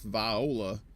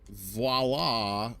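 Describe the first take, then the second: First: It is said the joking Southern US way. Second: It is said the standard French-like way.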